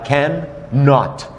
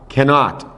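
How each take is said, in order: First: The two words are said apart, with two n sounds. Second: The words are joined, with a single n sound. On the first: The speaker calls it wrong. "ficaria estranho falar can not" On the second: The speaker calls it right. "se diz grudado, como se fosse o som de um N só"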